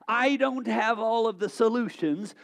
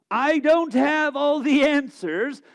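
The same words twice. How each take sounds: First: Said in the usual way. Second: Louder, slow and ringing proclamation; emphatic declaration. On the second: Real, not acted. Pastor happily heralding to the congregation, loud and slow. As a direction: proclaim it proudly, drawing it out. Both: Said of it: "I happily herald".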